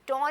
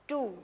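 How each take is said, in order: First: The vowel is an open 'aw' sound. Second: The vowel is a long 'oo' sound. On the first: The speaker calls it wrong. "टॉ नहीं कहना इसको" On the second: The speaker calls it right.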